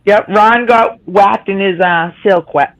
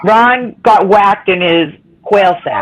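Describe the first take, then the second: First: Slow stumbling tongue twister. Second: Each word of "Ron got whacked in his quail sack" said slowly and with care; slow careful tongue twister. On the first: Real, not acted. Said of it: "I can't even say it". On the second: Shown as a demonstration. To the group, the tongue twister said slowly and clearly. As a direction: ease it out slowly so the tongue twister comes out right. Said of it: "That's a tongue twister".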